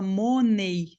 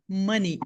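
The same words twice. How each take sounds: First: It is read letter by letter, Portuguese style. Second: It is said with English sounds, two syllables. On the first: The speaker calls it wrong. "Se você for ler igual você lê em português, a tendência é você falar money" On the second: The speaker calls it right. "É esta a pronúncia"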